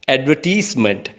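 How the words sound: It is said in an Asian English accent.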